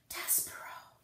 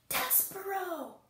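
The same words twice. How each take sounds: First: The name is whispered softly. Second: The name is shouted loudly.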